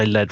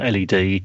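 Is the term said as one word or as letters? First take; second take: one word; letters. First: It is said as one short word. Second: It is spelled out letter by letter. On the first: "I tend to say L E D" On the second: "rather than L E D"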